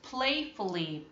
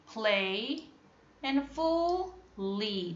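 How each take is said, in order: First: Said in the usual way. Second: Play, pause, then a slow and fully; split slowly. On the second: Shown as a demonstration. Teacher splitting playfully for pupils, slowly. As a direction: pull playfully apart into its pieces.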